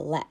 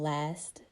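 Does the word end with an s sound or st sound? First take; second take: s sound; st sound. First: The word ends with only an s sound. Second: The word ends with a full st cluster. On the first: "the cluster is reduced" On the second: "It ends in the cluster S T"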